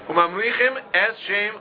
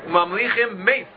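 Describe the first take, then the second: First: There is a pause between the two words. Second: The two words run together without a pause. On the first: The following word is heard as the name. The speaker calls it right. "make sure to stop between Mamlichim" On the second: It sounds like honoring someone who died. The speaker calls it wrong. "it shouldn't sound like Mamlichim Mace"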